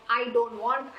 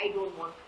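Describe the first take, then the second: First: Said in the usual way. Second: Much softer, trailing away; fading whine. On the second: Retold or imitated. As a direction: let the complaint die out quietly. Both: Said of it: "You want to be depressed".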